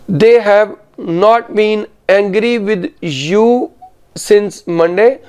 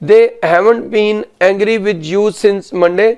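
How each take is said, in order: First: "Have" and "not" are said as separate words. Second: "Have" and "not" merge into "haven't". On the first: This is the written style. "ये written English में" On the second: This is the conversational style. "Spoken में कितना difference आएगा। सुनिए"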